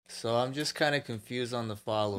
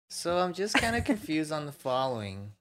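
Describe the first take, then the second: First: It is read in a natural voice. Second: It is read in a put-on girlish voice.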